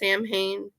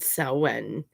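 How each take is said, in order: First: The name is said in the American way. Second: The name is said in the Gaelic way. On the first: "the Americans pronounce it Samhain" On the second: "That is the Gaelic pronunciation of Samhain"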